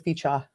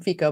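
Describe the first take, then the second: First: The name ends with an a sound. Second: The name ends with an o sound. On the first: This is the name's actual form. The speaker calls it right. "but it's actually Ficha" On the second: This is how most people say the name. The speaker calls it wrong. "everybody was calling him Fico"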